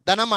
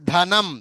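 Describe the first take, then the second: First: The first consonant is plain, without aspiration. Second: The first consonant is breathy and aspirated. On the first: The speaker calls it wrong. "అనకూడదు" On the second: The speaker calls it right. "ధనం పలికేటప్పుడే ధనం"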